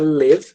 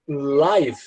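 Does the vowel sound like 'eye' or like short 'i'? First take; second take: short i; eye. First: The vowel is a short 'i' sound. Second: The vowel is an 'eye' sound. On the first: It is the verb meaning to reside. "se você pronunciar live, quer dizer o verbo morar" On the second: It means happening in real time. "Se você falar live, quer dizer ao vivo"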